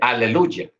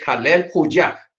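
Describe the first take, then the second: First: It is said as one joined word. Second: It is said as two separate parts. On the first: The speaker calls it wrong. "juntó toda la palabra" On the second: The speaker calls it right. "la forma correcta es Halel Juyah"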